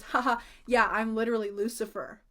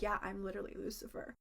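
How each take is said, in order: First: Said in the usual way. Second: Much softer, low sinister murmur; a stranger claims to be Lucifer, sinister and soft; sinister Lucifer line. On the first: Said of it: "And he goes". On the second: Retold or imitated. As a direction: hush it like a menacing secret. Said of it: "he just looked so sinister".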